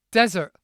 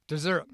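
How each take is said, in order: First: Desert with a short open e, stress on the first syllable, punched loud; desert pronunciation. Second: Sigh, then Dessert with the weight on -ssert; dessert pronunciation. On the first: Teaching the difference between desert and dessert, punched Desert. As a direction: hit Desert hard, short e up front. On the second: Teaching the difference between desert and dessert, sighed Dessert. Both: Shown as a demonstration.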